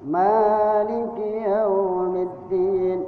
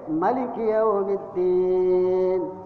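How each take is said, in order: First: The first vowel of Maliki is held long. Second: The first vowel of Maliki is kept short. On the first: This is the Asim reading. "dibaca dua harakat" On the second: This is the reading of other imams. "dibacanya pendek"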